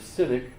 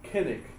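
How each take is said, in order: First: The word begins with a soft S sound. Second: The word begins with a hard K sound. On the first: This is the usual English pronunciation. "instead of cynic" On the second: This follows the original Greek pronunciation. "You might pronounce it kinnick"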